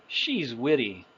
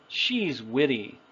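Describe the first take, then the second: No difference in how they are said.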